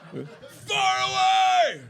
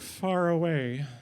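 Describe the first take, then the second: First: It is screamed loudly. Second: It is said quietly and politely.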